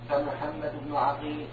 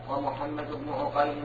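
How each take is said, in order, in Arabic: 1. أول حركة في الاسم هي 'a' مفتوحة. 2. أول حركة في الاسم هي 'u' مضمومة ومستديرة. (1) "بفتح العين" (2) "بضمها"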